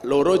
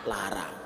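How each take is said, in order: First: The vowels are pronounced as o sounds. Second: The vowels are pronounced as a sounds. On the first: This is how Jogja Javanese speakers say it. "Kalau orang Jawa seneng ngomong O" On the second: This is how Ngapak speakers say it. "orang Ngapak seneng ngomong A"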